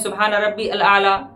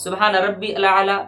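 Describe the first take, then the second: Both takes have the same delivery.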